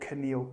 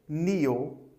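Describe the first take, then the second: First: The k at the start is pronounced. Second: The k at the start is silent. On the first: The speaker calls it wrong. "Don't say" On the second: The speaker calls it right.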